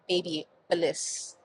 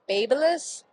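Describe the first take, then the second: First: The name ends with a full 'bliss' sound. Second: The name ends with a short, weak 'lus' sound. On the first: The speaker calls it wrong. "It is not baby bliss" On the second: The speaker calls it right. "it's Babylus"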